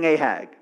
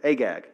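First: The middle consonant is an h sound. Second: The middle consonant is a g sound.

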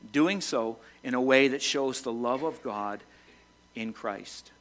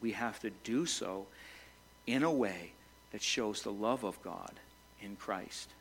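First: It is said at normal speed. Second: It is said very slowly.

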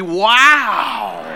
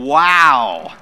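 First: It is said with real amazement. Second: It is said plainly, without amazement.

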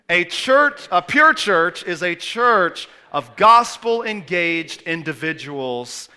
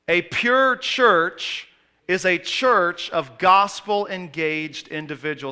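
First: It is said louder and more robustly. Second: It is said at a normal volume.

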